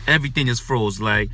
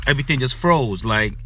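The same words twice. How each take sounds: The two takes are said the same way.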